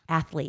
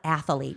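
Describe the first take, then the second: First: The word is said with no middle vowel. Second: An extra uh vowel splits the word's middle. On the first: The speaker calls it right. "there is no uh in there. It's just athlete" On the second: The speaker calls it wrong. "It's not athlete"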